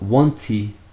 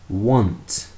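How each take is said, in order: First: An extra vowel is added after the final t. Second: The word ends cleanly on the t sound. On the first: The speaker calls it wrong. "not wanty" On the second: The speaker calls it right. "Finish with the T sound"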